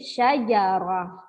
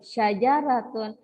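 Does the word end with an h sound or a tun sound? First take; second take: h sound; tun sound. First: The word ends with an h sound, syajarah. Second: The word ends with a t sound, syajaratun. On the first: The reader stops at the end of the word. "Syajaratun tadi menjadi syajarah" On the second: The word is read joined to what follows. "saya baca wasal atau saya baca bersambung"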